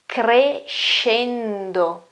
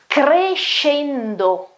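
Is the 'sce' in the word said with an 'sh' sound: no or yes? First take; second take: yes; yes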